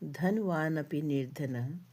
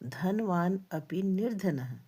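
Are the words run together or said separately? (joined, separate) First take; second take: joined; separate. First: The words are run together into one joined form. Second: The words are split apart and said separately. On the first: "यहाँ पे बहुत शब्दों का संधि किया हुआ है।" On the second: "संधि विच्छेद करके शब्दों का उच्चारण"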